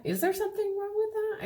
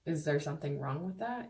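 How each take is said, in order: First: Incredulous high-pitched echo. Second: Said in the usual way. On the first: Shown as a demonstration. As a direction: throw it up high like it's absurd. Repeated, jumping much higher.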